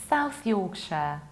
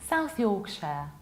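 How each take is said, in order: No difference in how they are said.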